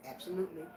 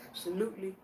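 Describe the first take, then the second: No difference in how they are said.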